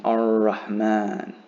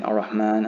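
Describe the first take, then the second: First: "Ar-Rahman" slow, with the R held for two counts; drawn-out "Ar-Rahman" with a long R; held double R. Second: Said in the usual way. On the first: Shown as a demonstration. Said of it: "hold the letter it is". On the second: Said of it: "Instead of saying Ar-Rahman".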